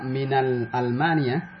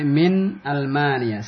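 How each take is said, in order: First: The noun is read with an added article 'al'. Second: The noun is read without an added article. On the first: The speaker calls it wrong. "jangan dibaca min Almania" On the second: The speaker calls it right. "tapi min Almania"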